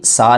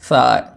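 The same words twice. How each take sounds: First: The first consonant is a sharp, hissing s. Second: The first consonant is a soft, lisped th. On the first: The speaker calls it wrong. "ये सा नहीं" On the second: The speaker calls it right. "बल्कि सा"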